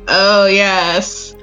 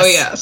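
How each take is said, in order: First: It sounds passionate and engaged. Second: It sounds bored and uninterested.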